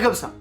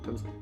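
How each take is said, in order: First: It is said loudly. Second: It is said quietly. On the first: This is the volume to avoid. The speaker calls it wrong. "Pas comme ça" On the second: This is the volume to use. The speaker calls it right. "le volume sonore de cette vidéo va être raisonnable"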